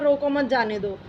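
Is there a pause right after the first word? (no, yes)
no. It is said straight through without a pause. The sentence carries no clear meaning. "एक simple सा वाक्य हो गया"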